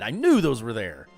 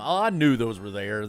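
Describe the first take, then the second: First: It sounds excited and triumphant. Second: It sounds dumb and sheepish.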